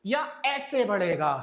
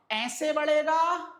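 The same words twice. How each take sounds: First: या ऐसे बढ़ेगा with ऐसे hit hard and a falling end; second option, punched. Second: ऐसे बढ़ेगा drawn out slowly, higher and louder; first option stretched out. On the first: Teacher sets the second way against the first, loud on ऐसे. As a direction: hit ऐसे loudly, then let the line drop. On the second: Teacher shows students the first way the lungs grow, slow and loud. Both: Shown as a demonstration. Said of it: "lungs का volume कैसे बढ़ेगा?".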